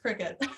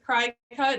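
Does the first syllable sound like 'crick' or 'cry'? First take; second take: crick; cry. First: The first syllable sounds like 'crick'. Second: The first syllable sounds like 'cry'. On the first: The speaker calls it right. "It's Cricket" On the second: The speaker calls it wrong. "a lot of people think it's Cry Cut"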